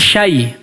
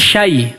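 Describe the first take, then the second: First: The a vowel is cut short into the y. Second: The same.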